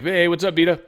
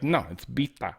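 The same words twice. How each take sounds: First: Said in the usual way. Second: "Bita" said the Persian way, softer; insistent correction of "Bita"; her way of saying Bita. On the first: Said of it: "We'd all be like". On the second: Retold or imitated. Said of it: "She's like".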